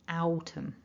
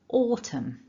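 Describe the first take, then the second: First: The first vowel sounds like 'ow'. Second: The first vowel sounds like 'or'. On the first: The speaker calls it wrong. "sometimes people will make the mistake of trying to pronounce this word ow" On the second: The speaker calls it right. "It's not an ow, it's an or"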